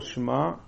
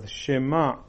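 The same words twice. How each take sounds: First: The first two consonants run together without vowel. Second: A short vowel follows the first consonant. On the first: The speaker calls it wrong. "ולא שמע" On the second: The speaker calls it right. "שמע ולא שמע, כי שווה בראש מילה הוא נע"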